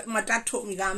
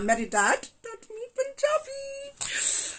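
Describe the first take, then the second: First: Said in the usual way. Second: Put-on high, slow, drawn-out Punjabi accent. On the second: Telling viewers dad taught them, in a playful high Punjabi accent. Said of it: "yeah, I love accents".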